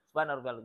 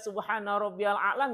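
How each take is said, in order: First: The phrase is said quickly and clipped. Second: The phrase is said slowly and fully. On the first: The speaker calls it wrong. "bacanya buru-buru" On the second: The speaker calls it right. "nggak kayak gitu"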